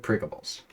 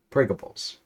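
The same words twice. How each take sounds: First: Pringables whispered and forced out; strained whisper. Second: Said in the usual way. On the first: Acted. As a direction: barely get Pringables out in a breathy whisper. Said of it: "struggle to get the word out".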